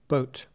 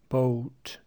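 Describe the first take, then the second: First: The vowel is short and clipped. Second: The vowel is drawn out long. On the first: The speaker calls it right. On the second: The speaker calls it wrong.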